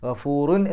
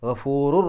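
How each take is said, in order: First: The word ends with a clear n sound. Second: The final n merges into a following r. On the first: The speaker calls it wrong. "ഗഫൂറുൻ എന്ന് പറയില്ല" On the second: The speaker calls it right. "ഗഫൂറു എന്ന് പറഞ്ഞിട്ട് അടുത്ത റായിന് ശബ്ദ കൊടുത്താൽ മതി"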